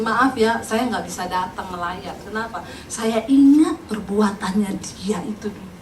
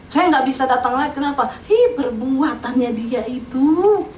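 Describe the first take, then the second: First: Low, subdued excuse from a neighbour; quietly refuse, dragging out the grievance; onwillige buur. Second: Drawn-out, hammed-up grudge; mock a neighbour's bitterness, stretching the last words; bitter neighbour. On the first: Retold or imitated. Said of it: "tetangga itu ngomong gini". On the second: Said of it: "masih kepahitan sama mayat".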